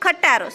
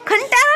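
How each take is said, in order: First: No n sound comes before the t. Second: An n sound comes before the t. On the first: The speaker calls it right. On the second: The speaker calls it wrong. "ખંટારો નહીં"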